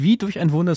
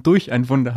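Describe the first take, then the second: First: "wie" stressed in "wie durch ein Wunder". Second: "durch" punched in "durch ein Wunder"; stress on durch. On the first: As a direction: lean on the word "wie". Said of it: "sondern durch ein Wunder". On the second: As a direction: hit the word "durch" firmly. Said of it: "Nicht wie durch ein Wunder". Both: Shown as a demonstration.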